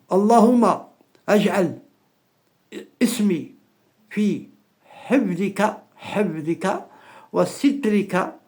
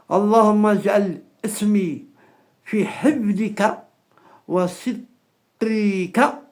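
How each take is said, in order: First: It is said slowly and carefully. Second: It is said at a normal, quicker pace.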